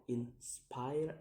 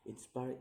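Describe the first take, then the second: First: "inspire" in two beats, rising on the second; second-syllable stress. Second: Said in the usual way. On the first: Shown as a demonstration. Teacher showing stress, "inspire" split and rising. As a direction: split "inspire" and lift the ending. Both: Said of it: "put on the second".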